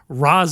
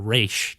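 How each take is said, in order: First: The name ends with an s sound. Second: The name ends with an sh sound. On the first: This is the commonly known pronunciation. "I decided to say Ra's instead, so the mainstream people could get what I was talking about" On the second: This is the speaker's usual pronunciation. "I usually say Raish"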